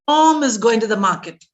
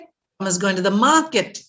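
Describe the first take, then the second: First: The word Tom is louder and stretched. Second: The word market is louder and stretched. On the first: "Stress on Tom" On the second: "saying market louder, emphasizing, elongating it"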